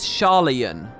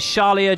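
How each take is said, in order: First: The name ends with an n sound. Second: The name ends with a vowel sound. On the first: The speaker calls it right. "It is Sharlayan" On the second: The speaker calls it wrong. "Is Sharlia just completely wrong then?"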